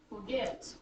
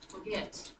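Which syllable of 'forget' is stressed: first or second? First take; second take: second; second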